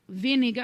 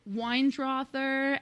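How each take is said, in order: First: The name is said in an Austrian accent. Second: The name is said in an American accent.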